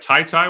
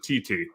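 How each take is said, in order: First: Each syllable has the vowel of 'tie'. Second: Each syllable has the vowel of 'tee'. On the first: The speaker calls it right. "am I saying it right?" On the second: The speaker calls it wrong. "or is it T T?"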